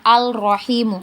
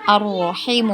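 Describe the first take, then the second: First: The article's l sound is clearly pronounced. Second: The l sound merges into a doubled r. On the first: The speaker calls it wrong. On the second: The speaker calls it right. "langsung masuk ke uh, huruf berikutnya"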